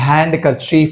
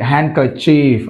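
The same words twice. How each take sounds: First: The d after n is pronounced. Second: The d after n is silent. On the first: The speaker calls it wrong. "అంతేగాని handkerchief అనకూడదు" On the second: The speaker calls it right.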